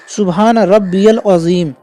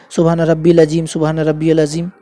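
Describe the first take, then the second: First: Slow "सुभान रब्बियल अजीम" with "रब्बियल" drawn out; correct pronunciation. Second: "रब्बिल" with the ya sound dropped; wrong pronunciation. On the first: Teacher slowly showing the right recitation of "रब्बियल". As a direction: stretch "रब्बियल" so the "ई-ए" is clearly heard. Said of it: "ईए को जोड़ना रहता है". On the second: Teacher showing women the common mistake, "रब्बिल" clipped. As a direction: say "सुभान रब्बिल अजीम", skipping the "ई-ए" in "रब्बिल". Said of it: "तो इस तरीके से नहीं पढ़ना है". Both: Shown as a demonstration.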